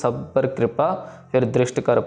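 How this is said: There is a pause after कृपा. The speaker calls it wrong. "Mostly ऐसे पढ़ते हैं"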